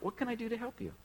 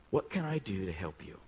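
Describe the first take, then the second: First: "What can I do to help you?" pitched much higher and a bit softer; softer high echo of the offer; lifted, softer repeat. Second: Said in the usual way. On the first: Shown as a demonstration. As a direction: float the offer up high and gentle. Second take, lifted.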